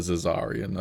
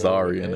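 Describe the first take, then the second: First: The name is said with four syllables. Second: The name is said with three syllables.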